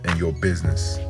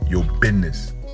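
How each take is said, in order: First: It is said in a plain, ordinary voice. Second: It is said in a dramatic movie-style voice.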